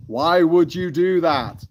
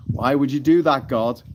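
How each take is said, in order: First: High, loud, slow plea, stretching each word; drawn-out mock anguish. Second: Louder, higher plea of disbelief; mock dismay. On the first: Streamer questions God in a joke, drawn-out mock anguish. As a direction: wail it slowly in hammed-up disbelief. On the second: Streamer questions God in a joke, mock dismay. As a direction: ask it in mock exasperation.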